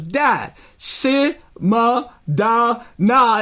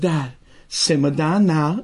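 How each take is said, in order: First: It is said with breaks between syllables. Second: It is said smoothly, without breaks.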